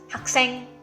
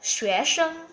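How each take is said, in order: First: It is said in Hokkien, with a K sound. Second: It is said in Mandarin, without a K sound. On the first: "in Hokkien is ... Can you hear the K in it?" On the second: "in Mandarin it's called"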